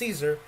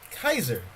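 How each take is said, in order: First: The name begins with an S sound. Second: The name begins with a K sound. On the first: The speaker calls it wrong. "His name was not pronounced Caesar" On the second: The speaker calls it right. "it was actually pronounced Kaiser"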